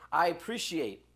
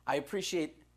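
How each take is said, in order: Both takes have the same delivery.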